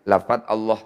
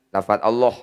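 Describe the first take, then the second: Both takes have the same delivery.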